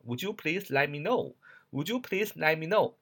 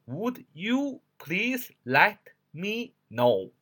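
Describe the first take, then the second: First: "Would you" joined into "wu-joo", flowing on; linked reading. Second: Very slow, each word of "Would you please let me know" separate. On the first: Teacher models how students should read it, linked up. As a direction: run "Would you please let me know" together as connected speech. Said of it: "应该连读一下". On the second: Teacher shows the unlinked reading, one word at a time. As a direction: pronounce "Would you" as two unlinked words, pitched higher. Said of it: "一个字儿一个字儿读是". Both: Shown as a demonstration.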